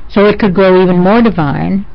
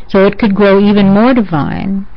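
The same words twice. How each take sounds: No difference in how they are said.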